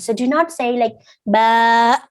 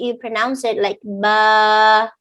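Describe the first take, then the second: First: The vowel ends with a sharp throat catch. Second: The vowel fades out with no throat catch. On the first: The speaker calls it wrong. "That is wrong. Do not close your throat" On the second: The speaker calls it right. "not Hamza in the end"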